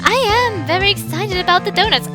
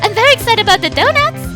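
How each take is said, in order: First: "I am" is said as two full words. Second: "I am" is contracted to one syllable.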